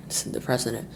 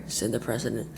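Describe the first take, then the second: No difference in how they are said.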